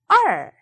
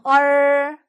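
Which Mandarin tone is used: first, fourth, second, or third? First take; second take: fourth; first. First: The pitch falls sharply and quickly. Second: The pitch stays high and level. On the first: "사성" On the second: "일성"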